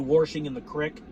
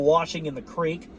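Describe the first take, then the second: First: The last word has a short i vowel. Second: The last word has a long ee vowel. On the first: "they say" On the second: "instead of"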